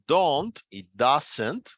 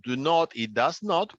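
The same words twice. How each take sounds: First: "don't" and "doesn't" said slowly, dropping the O of "not"; slow teacher's demo of contracted "don't" and "doesn't"; contracted pronunciation. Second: Said in the usual way. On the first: Shown as a demonstration. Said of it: "simplemente no se pronuncia la O en esos casos". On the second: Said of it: "simplemente no se pronuncia la O".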